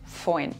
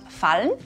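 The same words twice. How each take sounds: First: The L becomes an oi diphthong. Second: The L is pronounced as a clear consonant. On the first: "sagen wir im Dialekt fallen" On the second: "Statt fallen"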